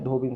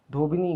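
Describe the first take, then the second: First: धोबिन stopping on "n"; short consonant ending. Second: धोबिनी with a final "ee"; wrong extra ending. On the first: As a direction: close धोबिन on "bin", no final vowel. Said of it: "सही है". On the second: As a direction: end धोबिनी on "nee". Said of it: "गलत है". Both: Shown as a demonstration.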